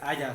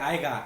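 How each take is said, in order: First: A soft y glide comes before the final vowel. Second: A hard g sound comes before the final vowel. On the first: The speaker calls it right. "The correct way to say it is haya" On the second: The speaker calls it wrong. "that word doesn't even exist"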